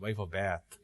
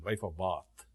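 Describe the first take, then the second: First: It is said in an American accent. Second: It is said without an American accent.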